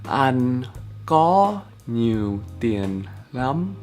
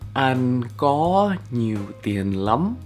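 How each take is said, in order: First: It is said more slowly. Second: It is said at normal speed.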